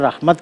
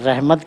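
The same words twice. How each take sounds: First: The word is pronounced the Arabic way. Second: The word is pronounced the Urdu way. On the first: "अगर कोई रहमत कहता है, तो उसको वो भी गलत हम करार नहीं देते" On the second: "उर्दू में हम रहमत कहते हैं"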